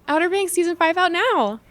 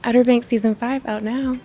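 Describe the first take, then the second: First: It is said in an enthusiastic tone. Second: It is said in a flirty tone.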